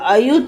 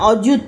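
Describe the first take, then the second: First: The first vowel is an open 'aa' sound. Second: The first vowel is a rounded 'o' sound. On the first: This is the old song-language pronunciation. "সেটা আয়ুত করে উচ্চারণ করা হতো" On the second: This is the everyday Bengali pronunciation. "অযুত আমরা যেটা বলি"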